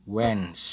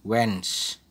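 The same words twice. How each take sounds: Both takes have the same delivery.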